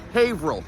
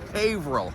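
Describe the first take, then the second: First: It is said like 'hayvrill'. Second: It is said like 'hayvrill'.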